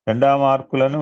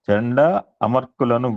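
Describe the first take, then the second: First: The two names are merged into one word. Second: The two names are kept apart, not merged. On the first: The speaker calls it wrong. "మనం ఏ సంధి సువర్ణ సవర్ణ సందో గుణచందో పెడుతున్నాం" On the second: The speaker calls it right. "సంధి చేయకూడదు, విడగొట్టాలి"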